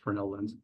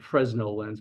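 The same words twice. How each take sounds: First: Fresnel is pronounced in the French way. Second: Fresnel is pronounced in an anglicized way. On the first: "it's a French lens, so it's" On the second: "some people would pronounce it"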